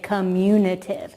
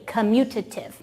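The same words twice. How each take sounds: First: An extra 'in' sound is added mid-word. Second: No extra 'in' sound is added mid-word. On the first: The speaker calls it wrong. "don't put that in in there. A lot of people try to say commutative. Don't do that" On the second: The speaker calls it right. "Say it with me"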